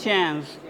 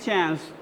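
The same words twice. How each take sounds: No difference in how they are said.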